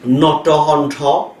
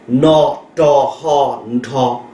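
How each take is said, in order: First: Said in the usual way. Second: "No to hon to" drawn out, each syllable separate and slow; teacher spelling out "No to hon to" very slowly; slow spelled-out syllables. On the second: Shown as a demonstration.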